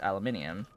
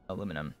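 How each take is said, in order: First: The word is said as aluminium, with five syllables. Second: The word is said as aluminum, with four syllables. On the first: It follows the spelling used in the game. "That is the only reason why I pronounce it that way" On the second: It is the speaker's usual American form. "Otherwise, aluminum"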